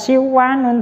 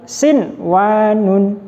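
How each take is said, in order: First: The n sound merges into the following w. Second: The n sound is pronounced clearly before w. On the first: The speaker calls it wrong. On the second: The speaker calls it right. "Harus dibaca jelas"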